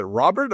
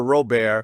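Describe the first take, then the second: First: Said in the usual way. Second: Robert with a silent t, "ro-BEAR"; French pronunciation. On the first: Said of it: "run to the other booth and say". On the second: Retold or imitated. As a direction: make Robert French, stressed on the second syllable. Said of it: "we figured he was French".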